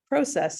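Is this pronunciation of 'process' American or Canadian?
Canadian. It is said the Canadian way.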